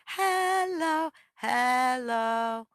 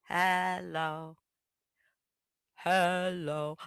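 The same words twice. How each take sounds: First: High sung "Hello, hello"; higher voice. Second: "Hello, hello" sung low; lower voice. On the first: Bird sings "Hello, hello" in a higher voice. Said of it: "a higher voice". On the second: Bird sings "Hello, hello" in a lower voice. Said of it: "sang in a lower voice". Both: Shown as a demonstration.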